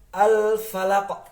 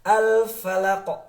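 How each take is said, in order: First: The final Q is cut off without bounce. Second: The final Q is released with a bounce. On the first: The speaker calls it wrong. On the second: The speaker calls it right. "ada pantulan"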